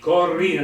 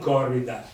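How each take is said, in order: First: The stress is on the second syllable. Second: The stress is not on the second syllable. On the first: The speaker calls it right. "l'accento tonico è sulla I" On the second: The speaker calls it wrong. "non corrida"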